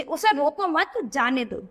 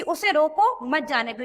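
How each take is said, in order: First: "उसे रोको मत" together, break, then "जाने दो"; मत के बाद विराम. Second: "उसे रोको" as one phrase, break, then "मत जाने दो"; रोको के बाद विराम. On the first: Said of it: "मत के बाद अगर ये अल्प विराम लगा दिया गया". ("रोको मत" साथ बोलें, फिर रुककर "जाने दो") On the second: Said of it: "इसमें ये क्या कह रहा है". ("रोको" के बाद रुककर "मत जाने दो" कहें) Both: Shown as a demonstration.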